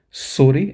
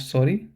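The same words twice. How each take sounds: First: "sorry" with a short rounded German o and rolled r; teacher models "sorry" the German way, o short, r tapped. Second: Teacher contrasts "sorry" said the English way. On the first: Teacher showing students the German sorry, crisp German o. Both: Shown as a demonstration. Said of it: "and not".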